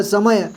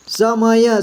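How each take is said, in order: First: Said in the usual way. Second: समय split into स, म, य; letter by letter. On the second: Shown as a demonstration. Teacher asking learners to read, समय letter by letter. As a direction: sound out समय one letter at a time. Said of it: "इसको पढ़िए".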